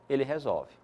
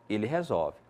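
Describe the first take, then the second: Both takes have the same delivery.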